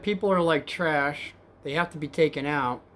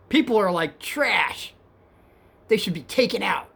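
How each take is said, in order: First: Said in the usual way. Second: Hostile passenger. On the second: Retold or imitated. Rider ranting at the cab driver, hostile.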